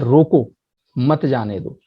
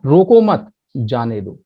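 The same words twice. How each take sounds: First: There is a pause after रोको. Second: There is a pause after मत.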